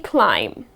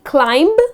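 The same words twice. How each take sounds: First: The final B sound is silent. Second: The final B sound is pronounced. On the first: The speaker calls it right. "you are not going to pronounce the last B here" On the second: The speaker calls it wrong. "It's not going to be climb"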